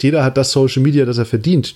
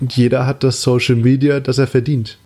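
First: It is said at normal conversational speed. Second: It is said very slowly.

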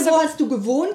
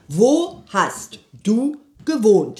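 First: The question is said at a normal pace. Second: The question is said very slowly.

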